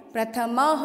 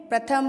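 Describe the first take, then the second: First: "प्रथमः" as pra-tha-ma-ha, ha after ma; visarga sounded. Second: "प्रथम" ending on ma, no ha after it; visarga left off. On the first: Teacher asks students to listen closely, visarga sounded as ha. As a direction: finish "प्रथमः" with a clear ha. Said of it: "म के बाद में ह की sound भी आएगी". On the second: Teacher shows how she will not read it, visarga dropped. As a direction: say "प्रथम" without the final ha sound. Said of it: "प्रथम नहीं पढ़ूँगी इसको only". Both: Shown as a demonstration.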